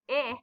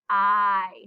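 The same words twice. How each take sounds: First: It is the short i vowel sound. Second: It is the long i vowel sound. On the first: The speaker calls it wrong. "I is not saying I" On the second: The speaker calls it right. "it's saying I"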